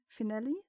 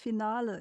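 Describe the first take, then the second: First: It is said with an ordinary English pronunciation. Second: It is said with a German-sounding pronunciation. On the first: "instead of fi- finale" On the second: "it says finale, and finale is German"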